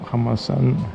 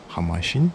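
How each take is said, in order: First: The last syllable sounds like 'san'. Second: The last syllable sounds like 'shing'. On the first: It may be the local or Japanese form of the name. "I wonder if Hamasan is actually Japanese or Taiju pronunciation" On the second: It is the Mandarin form of the name. "the Mandarin pronunciation is Hamashin"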